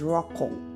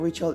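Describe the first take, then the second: First: The name is said with a harsh, throaty sound. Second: The name is said softly, without throaty sounds. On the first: This is the Hebrew way of saying the name. "in Hebrew" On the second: This is the usual English way of saying the name. "Rachel is not Rachel"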